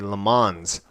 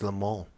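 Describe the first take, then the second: First: The name is said with an English-style pronunciation. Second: The name is said with a French-style pronunciation. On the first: The speaker calls it wrong. "I used to say Le Mans" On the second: The speaker calls it right. "proper pronunciation is Le Mans"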